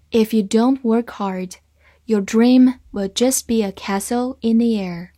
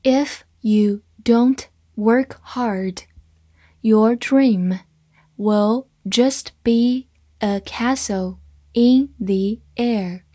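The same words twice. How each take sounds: First: Said in the usual way. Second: Slow, word by word, with pauses; slow reading. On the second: Shown as a demonstration. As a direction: read it out slowly and distinctly for learners. (慢慢地逐词朗读) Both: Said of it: "慢慢来读".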